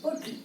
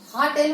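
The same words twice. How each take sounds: First: होटल as 'ho-tl', second vowel reduced; correct pronunciation. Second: हा टेल with two full vowels, 'haa-tel'; wrong pronunciation. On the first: Teacher correcting how we say it, modelled pronunciation. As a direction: say होटल softly with a short 'tl' ending. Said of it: "We say होटल". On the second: Teacher asks whether we say it so, mispronunciation on show. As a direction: say हा टेल as an open 'haa' plus a full 'tel'. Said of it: "आपण हा टेल म्हणतो का?". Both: Shown as a demonstration.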